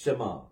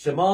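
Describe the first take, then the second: First: ஷமா short and low, hurrying the ஷ; quick first syllable. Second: ஷமா with the final aa dragged out; long vowel. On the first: Teacher showing students the right ஷமா, quick first syllable. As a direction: slip quickly through ஷ into an unstretched மா. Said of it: "இந்த ஷ சீக்கிரமா சொல்லணும்". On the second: Teacher showing how not to say ஷமா, long vowel. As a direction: stretch the end of ஷமா too long. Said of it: "அப்படின்னு சொல்லி சொல்லக்கூடாது". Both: Shown as a demonstration.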